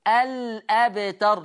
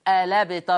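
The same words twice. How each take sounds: First: The l is silent, then a glottal stop. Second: The glottal stop is dropped, the l takes a. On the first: This follows the Hafs reading. "احنا بنقول في حفص ايه؟ الابتر، لم سكنة" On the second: This follows the Warsh reading. "حذفنا الهمزة للتخفيف، خدنا حركة الفتح حطناها على اللام الساكنة"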